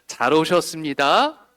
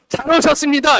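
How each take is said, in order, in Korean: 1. 부드럽고 다정한 말투로 말합니다. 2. 거칠고 강한 말투로 말합니다. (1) "다시 부드럽게 한번" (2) "지금처럼 잘 오셨습니다. 이렇게 말고"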